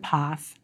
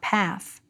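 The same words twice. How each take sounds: First: It is said in a British accent. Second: It is said in an American accent. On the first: "pronunciation norms for international English learners are still almost always British" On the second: "not path"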